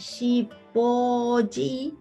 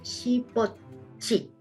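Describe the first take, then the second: First: The last syllable begins with a plain soft consonant. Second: The last syllable begins with a reinforced consonant. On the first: "esta sonaría" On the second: "se refuerza y hace este cambio fonético"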